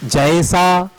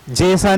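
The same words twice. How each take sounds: First: जैसा with a wide ae glide; correct jaesa. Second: जैसा with a narrow e; wrong jesa. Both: Shown as a demonstration. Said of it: "जैसा नहीं".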